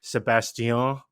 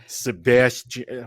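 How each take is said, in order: First: Sebastian said the French way, stress at the end; French pronunciation. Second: Flat American Sebastian, slow and drawn out; American accent. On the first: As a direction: Sebastian with a light French lilt, ending up. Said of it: "Sebastian, right?". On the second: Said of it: "let me put on my most American accent". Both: Shown as a demonstration.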